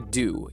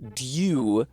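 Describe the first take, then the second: First: The word begins with a plain D sound. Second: The word begins with D and a Y glide. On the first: "in America we just would just say dew" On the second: "in England it was yeah, dew, but dew is also kind of annoying to say"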